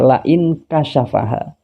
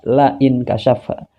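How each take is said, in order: First: The second word has four syllables. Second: The second word has three syllables. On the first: The speaker calls it right. "Yang benar itu bukan kasyafha, akan tetapi dibaca" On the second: The speaker calls it wrong. "Dia membaca lafadz kasyafaha dibaca kasyafha"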